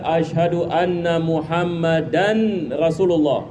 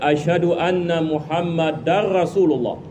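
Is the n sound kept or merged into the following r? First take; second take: kept; merged. First: The n is kept separate before the r. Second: The n merges into a doubled r sound. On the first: The speaker calls it wrong. "Kita tidak boleh baca" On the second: The speaker calls it right. "Cara bagaimana kita baca"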